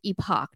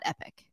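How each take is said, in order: First: The word ends with a 'pock' sound. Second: The word ends with a 'pick' sound. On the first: The speaker calls it right. "It's epoch" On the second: The speaker calls it wrong. "not epic"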